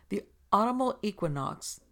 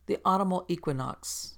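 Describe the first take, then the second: First: "The autumnal equinox" said higher, eager and unashamed; girl repeats it cheerfully after the rebuke; unabashed repeat. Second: A touch of stern, clipped correction on "The autumnal equinox"; mild severe interruption of Joyce. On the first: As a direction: take the word back brightly. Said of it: "Joyce went on, unabashed". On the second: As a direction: set the girl right, coolly. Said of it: "she interposed severely". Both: A narrator's reading.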